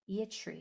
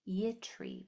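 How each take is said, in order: First: The T blurs into a 'chr' sound. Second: The T is pronounced as a clear T. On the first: The speaker calls it wrong. "That's a sloppy way to say it" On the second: The speaker calls it right. "We want it to say yitry"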